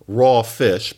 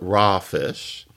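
First: The vowel in raw is a rounded aw. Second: The vowel in raw is an unrounded ah. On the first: "You say not raw fish" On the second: "but raw fish"

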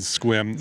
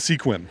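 First: The name is said as one syllable. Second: The name is said as two syllables. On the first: The speaker is a local. The speaker calls it right. "Chris does say it correctly" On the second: The speaker is from out of town. The speaker calls it wrong. "I can definitely tell someone was from out of town"

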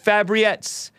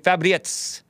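First: The R is said plainly, without a roll. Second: The R is rolled.

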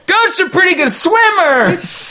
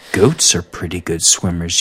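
First: It is said excitedly, like an exclamation. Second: It is said flatly, without excitement.

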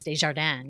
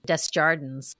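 First: The name is said with French sounds. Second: The name is said with English-style sounds. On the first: This is the original pronunciation. "the proper French pronunciation is Desjardins" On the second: This is how the family used to say it. "her parents pronounced it Desjardins or something like that"

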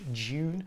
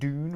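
First: It is said with a British accent. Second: It is said with an American accent.

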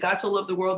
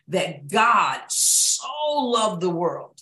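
First: The word 'so' is passed over quickly. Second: The word 'so' is stressed.

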